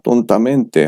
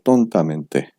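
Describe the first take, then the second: First: The main stress falls on the mente ending. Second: The main stress falls on the adjective part. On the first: The speaker calls it wrong. "아니고" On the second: The speaker calls it right. "mente에는 강세 들어가지 않습니다"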